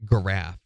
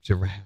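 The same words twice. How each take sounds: First: It begins with a hard G sound. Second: It begins with a soft G sound. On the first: Someone else says it this way. The speaker calls it wrong. "She also says giraffe" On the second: This is the usual way to say it. The speaker calls it right. "G followed by an I is usually a soft G"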